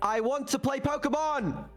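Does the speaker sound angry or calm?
angry. It is said in an angry tone.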